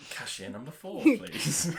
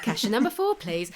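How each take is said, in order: First: Calling the next customer at a till; sing-song shop tannoy call; cashier announcement. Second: Calling out like a till announcement; bright shop cashier call. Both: Retold or imitated. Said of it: "That made you sound like".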